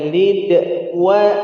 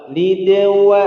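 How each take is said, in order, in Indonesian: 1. Kata-katanya dipisahkan oleh jeda singkat. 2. Kata-katanya menyambung tanpa jeda sama sekali. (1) "nggak boleh lid wa" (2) "langsung ke wa"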